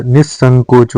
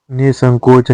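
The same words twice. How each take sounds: First: निसंकोच with a long double s; doubled s. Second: निसंकोच with one short s; no doubling in निसंकोच; single-s pronunciation. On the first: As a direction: hold the s in निसंकोच. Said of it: "निसंकोच होता है". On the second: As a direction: say निसंकोच as ni-sankoch. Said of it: "निसंकोच नहीं होता". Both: Shown as a demonstration.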